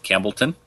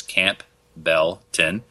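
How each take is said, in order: First: Said in the usual way. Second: Camp Belton said slowly as separate pieces; split into parts. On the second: Shown as a demonstration. Host spelling out the town by sound, Camp Belton in slow separate parts. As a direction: break Camp Belton apart, pausing between the parts. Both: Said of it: "That's Camp Belton".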